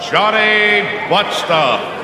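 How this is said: It is said in a booming announcer voice.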